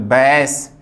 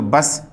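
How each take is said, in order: First: बैस with an open ae vowel as in bass. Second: बस with a short a as in bus; short a vowel. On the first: Teacher contrasting bass for students, open ae. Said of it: "और ये बोलेंगे तो बैस". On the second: Teacher contrasting bus for students, short a. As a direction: say बस with the plain short a. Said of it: "ये लगा के बोलेंगे तो बस". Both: Shown as a demonstration.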